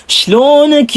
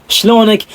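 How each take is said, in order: First: High-pitched, lilting Hasawi "Shlonak"; sweet Hasawi accent. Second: Said in the usual way. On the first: Shown as a demonstration. Vlogger demonstrating the Hasawi greeting, sweet and high. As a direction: sing out "Shlonak" in a smooth Hasawi lilt. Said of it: "smooth at napaka-sweet ng kanilang mga accent".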